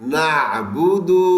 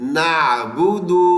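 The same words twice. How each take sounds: The two takes are said the same way.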